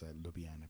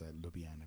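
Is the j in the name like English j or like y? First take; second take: y sound; y sound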